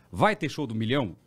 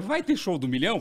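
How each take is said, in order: First: Said in the usual way. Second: Higher-pitched, taken-aback question; mildly surprised. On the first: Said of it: "uma pessoa me perguntou". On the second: Retold or imitated. Host phones the TV channel, mildly surprised question. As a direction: ask it as if it's news to you. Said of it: "Porque eu não sabia também".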